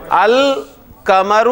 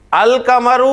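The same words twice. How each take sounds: First: القمر drawn out very slowly, al-qamar, with a light laugh; القمر, lam clearly sounded; slow model reading. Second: القمر with a clear l, al-qamar; lam pronounced. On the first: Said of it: "ذرا مجھے پڑھ کر بتائیں". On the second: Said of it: "دو باتیں آ رہی ہیں". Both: Shown as a demonstration.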